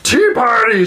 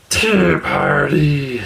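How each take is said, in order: First: High, loud burst of joy; troll thrilled to be invited; eager troll. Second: Slow, satisfied troll murmur; troll content at the tea table. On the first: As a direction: blurt it like a delighted giant. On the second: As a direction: savour it like a happy sigh. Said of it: "said the troll contentedly". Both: Acted.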